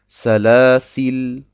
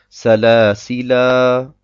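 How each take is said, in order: First: The word ends on a consonant, vowel dropped. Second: The word ends with a long final vowel. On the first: "oder ich sage Salasil. Salasil und lasse das Alif ganz weg" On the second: "Entweder sage ich Salasila"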